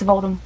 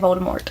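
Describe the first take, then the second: First: The final T sound is left silent. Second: The final T sound is clearly pronounced. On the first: The speaker calls it right. "you're not supposed to pronounce, pronounce the T" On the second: The speaker calls it wrong. "he actually emphasizes that T"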